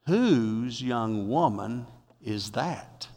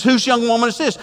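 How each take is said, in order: First: Slow, hushed, lower voice of Boaz; lingering over the question, intrigued; Boaz asking. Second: Excited. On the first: Preacher voices Boaz asking slowly. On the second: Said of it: "He gets excited". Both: Acted.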